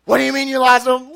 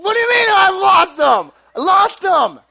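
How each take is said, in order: First: Raised, loud demand; imitated exasperated mom. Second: Shrieked, high mock wail; imitated crying. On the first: Mom questioning son about lost keys, mock exasperation. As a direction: play a mother's incredulous scolding. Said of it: "And she's just like". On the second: Son crying back at mom, hammed-up screaming sobs. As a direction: bawl it back at full volume. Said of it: "But I'm crying".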